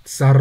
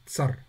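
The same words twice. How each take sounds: First: "Tsar" with a long rolling R, much louder. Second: "Tsar" with a quick short R. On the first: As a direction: roll the R on and on. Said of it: "R-nya nggak berhenti-berhenti". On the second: Teacher shows tsar with the soft sign. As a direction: clip the R short. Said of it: "R-nya cepet dan singkat". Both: Shown as a demonstration.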